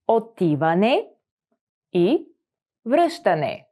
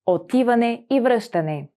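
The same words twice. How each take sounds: First: Each word set apart by pauses. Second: Said in the usual way. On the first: Shown as a demonstration. Teacher slowing down so students can repeat. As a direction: break the phrase into single words. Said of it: "split into words for repeating". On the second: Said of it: "whole phrase model".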